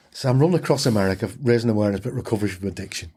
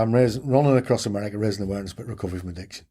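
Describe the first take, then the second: First: Rattled off quickly, brushing her aside; fast, offhand, just get the pitch over with; dismissive. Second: Rattled off fast, trailing into a mumble; bored recital, no life in it at all; dull monotone. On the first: To a nosy cafe woman, a quick dismissive brush-off. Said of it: "I dismissed her". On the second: To the cafe cook, a worn-out dull fast recital. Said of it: "And I said it that dull". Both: Retold or imitated.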